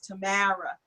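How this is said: The name is said with a Brooklyn twang. "it's Tamara. That that Brooklyn, that Brooklyn twang"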